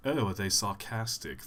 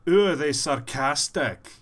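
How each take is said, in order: First: Underplay the sarcasm, let it drop away; understated sarcasm. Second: Loud, higher, exaggerated sarcastic voice; over-the-top sarcasm. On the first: Voice actor showing another kind of sarcastic character, understated sarcasm. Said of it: "They talk like this". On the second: Voice actor showing one kind of sarcastic character, over-the-top sarcasm. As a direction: play the sarcasm big and loud. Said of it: "Yeah, they talk like this". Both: Shown as a demonstration.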